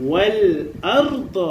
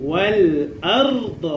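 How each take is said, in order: No difference in how they are said.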